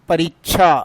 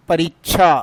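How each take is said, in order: First: The cluster is said the regional way. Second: The cluster is said the regional way.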